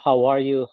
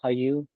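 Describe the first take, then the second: First: Every word of the phrase is said fully. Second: The middle word is dropped and words merge.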